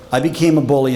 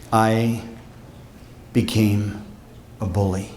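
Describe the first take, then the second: First: Said in the usual way. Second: Long pauses, fading lower and softer; dramatic pauses. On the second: Acted. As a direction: let each word drop into silence. Dramatic confession to students.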